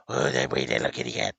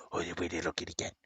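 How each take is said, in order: First: Fast, voiced sing-song coo. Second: Quick whispered coo to the kitty. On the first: Owner cooing aloud to his cat, sing-song. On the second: Owner whispering to his cat, soft and quick. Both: Real, not acted.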